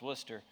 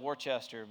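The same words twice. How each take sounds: First: The word is said in its shortened spoken form. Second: The word is sounded out as it is spelled. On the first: The speaker calls it right. "but it's pronounced Worcester" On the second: The speaker calls it wrong. "It's actually spelled Worcester"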